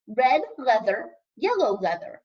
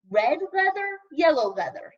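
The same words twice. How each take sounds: First: Teacher demo. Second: Said in the usual way. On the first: Shown as a demonstration. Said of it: "Repeat after me". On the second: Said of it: "said the sprites".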